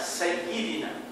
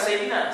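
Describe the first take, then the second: First: The 'y' sound is held long and doubled. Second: The 'y' sound is short and single. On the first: The speaker calls it right. "jadi mesti ada Sayyid" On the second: The speaker calls it wrong. "Bukan Sayyidina"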